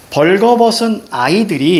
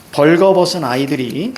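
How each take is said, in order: First: Poem reading. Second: Said in the usual way. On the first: Shown as a demonstration. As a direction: read 벌거벗은 아이들이 out slowly like reciting the poem. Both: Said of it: "이렇게 나오죠".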